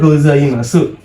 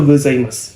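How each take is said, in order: First: "gozaimasu" with the final u fully spoken; written spelling. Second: "gozaimasu" said as gozaimas, final u melted away; u dropped. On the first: Teacher reads the written form to students, final u clearly voiced. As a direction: sound out every letter of "gozaimasu". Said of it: "tetapi diucapkannya itu". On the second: Teacher shows students the real pronunciation, final u dropped. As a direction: end "gozaimasu" on a bare s. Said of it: "Jadi, U-nya melebur". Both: Shown as a demonstration.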